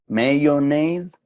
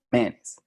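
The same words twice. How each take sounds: First: "mayonnaise" drawn out slowly in three syllables, may-yo-NAISE, louder. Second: "manes" short in two syllables, MAN-ez. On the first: Teacher contrasts the northern "mayonnaise" with the Southern form. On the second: Teacher contrasts the Southern "manes" with the northern form. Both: Shown as a demonstration. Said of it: "¿Sí ven la diferencia?".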